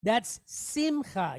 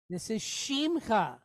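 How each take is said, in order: First: Simcha with a plain S at the start, slowly; contrasting pronunciation. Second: Shimcha with a clear SH at the start; correct pronunciation. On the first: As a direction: say simcha with s, not sh. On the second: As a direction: say shimcha with sh, not s. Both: Shown as a demonstration. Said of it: "listen for the S versus the S H".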